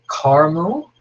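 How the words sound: The word is said with an American pronunciation. "in the U S you say caramel"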